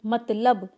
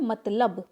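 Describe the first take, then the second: First: The l sound comes before the b sound. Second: The same.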